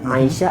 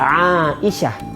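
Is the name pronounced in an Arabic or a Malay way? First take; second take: Malay; Arabic. First: The name is pronounced with Malay-style sounds. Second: The name is pronounced with Arabic sounds. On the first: The speaker calls it wrong. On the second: The speaker calls it right.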